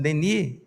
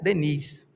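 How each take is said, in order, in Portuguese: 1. O S final é silencioso. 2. O S final é pronunciado. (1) "que eu estou pronunciando Denis, é porque a pronúncia francesa tira o S" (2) "Mas em português seria Léon Denis"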